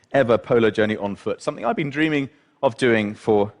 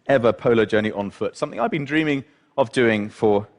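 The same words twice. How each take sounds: The two takes are said the same way.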